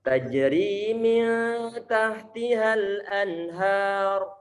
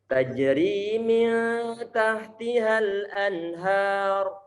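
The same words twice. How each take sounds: First: The n is clear with a brief nasal hum. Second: The same.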